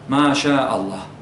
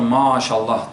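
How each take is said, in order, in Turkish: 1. Dikkatli bir Arapça şekilde telaffuz ediliyor. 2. Günlük Türkçe şekilde telaffuz ediliyor. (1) "Doğrusu şudur" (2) "Bazıları maşallah diyor"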